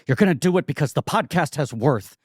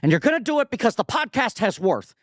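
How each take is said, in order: First: It is said in a rueful tone. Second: It is said plainly, without ruefulness.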